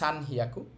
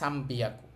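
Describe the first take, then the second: First: The second part begins with an h sound. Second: The second part begins with a b sound. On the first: The speaker calls it wrong. "হওয়ার কথা ছিল সান হিয়াকু" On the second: The speaker calls it right. "এটার উচ্চারণ ব্যতিক্রম, এটাকে বলে সামবিয়াকু"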